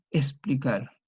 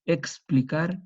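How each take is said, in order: First: Explicar with the k dropped, es-pli-KAR; folksy explicar, no k; popular s. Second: Explicar with a full ks, eks-pli-KAR; careful ks. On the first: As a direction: drop the k in explicar. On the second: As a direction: sound the k and the s in Explicar. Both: Shown as a demonstration. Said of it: "nuestro castellano popular".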